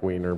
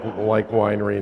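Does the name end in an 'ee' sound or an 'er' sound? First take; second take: er sound; ee sound. First: The name ends in an 'er' sound. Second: The name ends in an 'ee' sound. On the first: The speaker calls it wrong. "not like Weiner" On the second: The speaker calls it right. "like Weinre"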